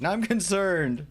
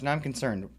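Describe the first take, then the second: First: Slower, higher and louder, stretched out; drawn-out half-joking yell; mock-screamed concern. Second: Said in the usual way. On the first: Real, not acted. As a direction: yell it as fake alarm. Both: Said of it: "I don't know why I am screaming".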